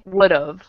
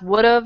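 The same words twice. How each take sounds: First: The word is said at a normal pace. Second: The word is said very quickly.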